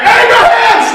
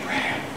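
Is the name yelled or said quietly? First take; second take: yelled; quietly. First: The name is yelled loudly. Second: The name is said quietly.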